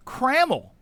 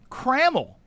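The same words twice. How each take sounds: First: The middle vowel is clearly said. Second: The same.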